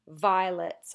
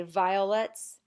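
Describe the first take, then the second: First: Violets squeezed into two syllables, VI-lets; squeezed together. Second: Violets said slowly as vi-o-lets; three full syllables. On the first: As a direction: drop the middle O of Violets. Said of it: "they'll just squeeze it together". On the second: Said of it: "Technically, we say violets". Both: Shown as a demonstration.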